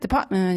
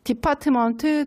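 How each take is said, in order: First: The final syllable is swallowed and said quickly. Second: The final syllable is pronounced fully and clearly.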